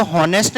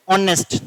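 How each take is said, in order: First: हॉनेस्ट with a sounded h, as the wrong way; हॉनेस्ट said with the h heard; wrong h pronounced. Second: ऑनेस्ट with the h dropped, starting on the vowel; ऑनेस्ट with no h sound at all; silent h. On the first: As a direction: say हॉनेस्ट starting with a breathy h. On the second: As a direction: say ऑनेस्ट opening straight on 'o'. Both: Shown as a demonstration. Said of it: "इसको हॉनेस्ट नहीं बोलते".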